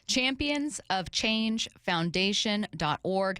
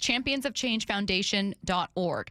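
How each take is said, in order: First: The phrase is said slowly and carefully. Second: The phrase is said at normal speed.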